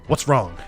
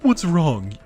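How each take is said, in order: First: It is said in a short, curt voice. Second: It is said in a Jafar-like villain voice.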